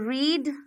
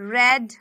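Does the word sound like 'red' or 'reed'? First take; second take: reed; red. First: The vowel is long, like in 'reed'. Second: The vowel is short, like in 'red'. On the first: It is the present form of the verb. "ये verb की first form है ... इसे तो रीड पढ़ते हैं" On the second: It is the past form of the verb. "ये second form है ... इसे रेड पढ़ते हैं"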